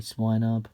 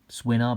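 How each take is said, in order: First: The first syllable sounds like 'swine'. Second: The first syllable sounds like 'swin'. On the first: It is the speaker's own pronunciation, linked to pigs. "because it kind of looks like a pig, so I would say Swinub" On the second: It is how Americans say it. "is what the Americans say"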